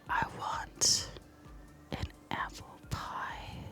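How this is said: It is said slowly and seductively.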